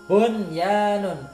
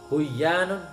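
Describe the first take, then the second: First: The first n sound is clearly pronounced before the y. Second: The first n sound is merged into the y. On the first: The speaker calls it right. "ini nun sukun bertemu dengan ya" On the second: The speaker calls it wrong. "Buyanun ini tidak boleh"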